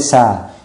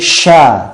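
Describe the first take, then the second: First: The consonant is a plain s sound. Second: The consonant is a strong hissing sh sound. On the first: The speaker calls it wrong. "tidak boleh" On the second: The speaker calls it right. "desisannya e, dipertegas"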